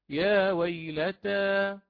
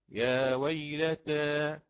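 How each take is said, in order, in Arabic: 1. الحركة الأخيرة فتحة خالصة. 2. الحركة الأخيرة مائلة قليلاً نحو الكسرة. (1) "بوجه الفتح" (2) "هكذا بالتقليل"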